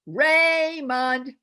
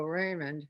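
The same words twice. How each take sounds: First: Loud, high yell with the mouth wide open; mom calling child. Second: Soft, mumbled with a stiff jaw; barely moving jaw. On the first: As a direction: call your kid in from outside. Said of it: "yell it like a mom calling her child". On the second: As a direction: say it like a ventriloquist, mouth almost shut. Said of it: "we are barely moving your jaw". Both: Shown as a demonstration.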